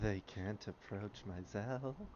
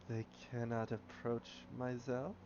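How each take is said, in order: First: It is said at normal speed. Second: It is said slowly.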